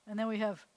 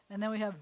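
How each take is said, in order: Both takes have the same delivery.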